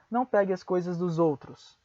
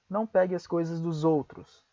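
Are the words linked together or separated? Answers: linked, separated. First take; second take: linked; linked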